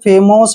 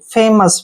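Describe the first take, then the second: First: The second vowel is a full 'o' sound. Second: The second vowel is a short 'uh' sound. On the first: The speaker calls it wrong. "अगर करेंगे तो फेमोस बन जाएगा जो कि गलत है" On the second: The speaker calls it right. "ऐसे फेमस, फेमोस नहीं पढ़ना है फेमस"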